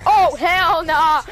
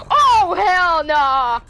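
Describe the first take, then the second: First: Crying out in panic, loud; panicked cry. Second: Drawn out slowly in rising dread. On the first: Gamer panicking as the monster rushes in, crying out. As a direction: break into a scared yell. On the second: Gamer seeing the monster coming, slow loud dread. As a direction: let it sink in, slow and loud. Sees the threat approach. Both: Real, not acted.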